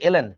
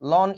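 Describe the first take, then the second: First: It is said as two letter names, el-en. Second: It is said as a single syllable, lon. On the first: The speaker calls it right. "Actually উচ্চারণটা কিন্তু এলএন" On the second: The speaker calls it wrong. "লন না"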